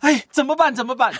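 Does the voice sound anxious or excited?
excited. It is said in an excited, eager way. "然后呢兴奋，"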